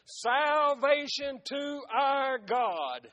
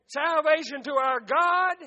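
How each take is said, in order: First: Drawn-out, slow proclamation; loud cry. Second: Louder, ringing proclamation; loud cry. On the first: Multitude crying before the throne, slow proclaimed cry. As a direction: stretch each word out as a preached cry. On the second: Multitude crying before the throne, loud urgent cry. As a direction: cry it out harder, pushing up on God. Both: A narrator's reading. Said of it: "cried with a loud voice".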